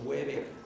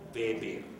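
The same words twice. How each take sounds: First: The name begins with an English W sound. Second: The name begins with a V sound. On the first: The speaker calls it wrong. "El apellido no es gringo y por lo tanto no es Weber" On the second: The speaker calls it right. "la W en alemán se pronuncia V chica"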